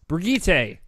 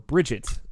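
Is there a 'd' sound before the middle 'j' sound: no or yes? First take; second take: no; yes. First: The middle consonant has no 'd', unlike 'bridge'. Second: The middle consonant has a 'd', like 'bridge'. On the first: The speaker calls it right. "not bridge it, like not like a bridge" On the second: The speaker calls it wrong. "as some people have been calling her, which is not the actual pronunciation"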